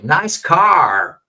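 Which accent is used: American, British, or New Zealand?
American. It is said in an American accent, R pronounced. "como Americans dicen"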